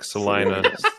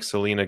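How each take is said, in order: First: The middle syllable sounds like 'lie'. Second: The middle syllable sounds like 'lee'. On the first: The speaker calls it right. "It's like Salina, saliva" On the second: The speaker calls it wrong. "It's not like Selena Gomez"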